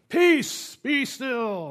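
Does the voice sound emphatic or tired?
emphatic. It is said forcefully and with emphasis.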